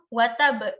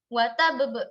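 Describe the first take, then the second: First: A single final b is bounced, not doubled. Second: Both final b sounds are bounced separately. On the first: "pantulannya hanya satu huruf, sedangkan satu hurufnya lagi hilang" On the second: "Dua-duanya kita pantulkan"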